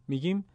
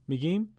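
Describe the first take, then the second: Both takes have the same delivery.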